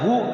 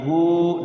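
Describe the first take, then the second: First: The vowel is cut short. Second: The vowel is held for two beats. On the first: The speaker calls it wrong. "Jangan dibaca hu, jangan begitu" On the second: The speaker calls it right. "tapi hu dua harokat"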